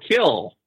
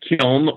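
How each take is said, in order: First: The word ends on l, with no n. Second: The word ends with an audible n sound. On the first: "there's another pronunciation, ... and it's kill" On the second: "kill can be pronounced kiln or kill"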